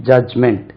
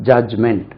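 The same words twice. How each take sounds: The two takes are said the same way.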